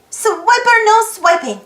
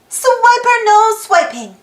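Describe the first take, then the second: No difference in how they are said.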